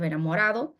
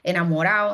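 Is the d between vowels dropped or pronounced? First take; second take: pronounced; dropped. First: The d between the last vowels is pronounced. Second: The d between the last vowels is dropped. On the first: "instead of enamorado" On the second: "deletion of intervocalic D"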